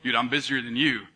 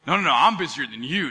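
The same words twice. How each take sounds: First: Low, cool boast; prideful one-upping. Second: Insistent comeback leaning on "I'm"; one-upping comeback. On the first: Friend opening a busyness contest, low prideful boast. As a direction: lay down a low-pitched boast. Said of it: "it becomes like this pride thing". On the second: Friend topping the other's busyness, insistent boast with weight on "I'm". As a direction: cut in and top the boast, hitting "I'm". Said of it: "going back and forth". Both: Acted.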